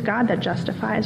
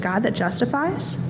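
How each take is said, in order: First: The pitch falls at the end, like a statement. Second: The pitch rises at the end, like a question. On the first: It is stated as a fact. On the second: It is asked as a question.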